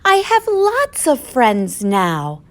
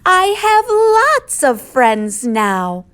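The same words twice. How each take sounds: First: It is said at a normal, quieter volume. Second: It is said very loudly.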